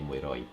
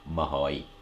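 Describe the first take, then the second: First: It is said as mui plus roi with R. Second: It is shortened to ma plus hoi with H. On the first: This is the written, formal form. "from the written you say mui roi" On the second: This is the everyday spoken form. "In spoken we say like this"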